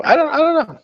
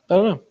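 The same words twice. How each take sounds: First: Much higher squeaky shrug; falsetto shrug. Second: Said in the usual way. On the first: Pretend. Streamer dodging his own question: squeaky falsetto shrug. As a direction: toss it off in a squeak.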